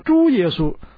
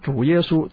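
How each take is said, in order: First: The first syllable has a high level tone. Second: The first syllable has a dipping falling-rising tone. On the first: It means pig Jesus. The speaker calls it wrong. "他就说猪耶稣啊，那么把耶稣呢这个主呢变成一头猪了" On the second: It means the Lord Jesus. The speaker calls it right. "他不是说主耶稣"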